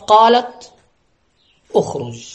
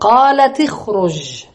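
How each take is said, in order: First: There is a stop after the first word. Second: The words run together with a linking vowel. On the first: "مرة تريد القطع، تريد الوقف" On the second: "مرة تريد الوصل فتقول"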